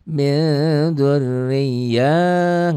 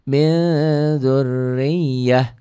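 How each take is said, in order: First: The final vowel is drawn out long. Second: The final vowel is kept short. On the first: The speaker calls it wrong. "nggak boleh" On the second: The speaker calls it right. "Kenapa tidak panjang? Karena tidak ada mad"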